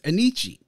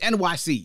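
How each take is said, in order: First: The name is said as one flowing word. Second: The name is said as three separate letters. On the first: The speaker calls it wrong. "it was being pronounced as Anichi" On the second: The speaker calls it right. "But it's NYC, y'all"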